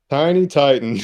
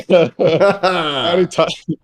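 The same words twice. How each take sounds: First: Said in the usual way. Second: Slow, higher, breaking into laughter; can't hold back the giggle; laughing. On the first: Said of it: "I can't keep a straight face". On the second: Real, not acted. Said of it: "I can't keep a straight face with this one".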